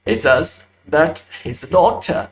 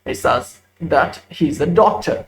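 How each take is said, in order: Both takes have the same delivery.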